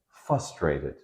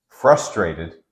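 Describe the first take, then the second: First: The R sound after the F is dropped. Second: The R sound after the F is pronounced. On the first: The speaker calls it wrong. "They say frustrated" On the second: The speaker calls it right. "frustrated is the word"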